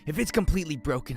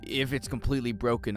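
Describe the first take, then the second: First: It is said in a Deku impression voice. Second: It is said in a non-Deku character voice.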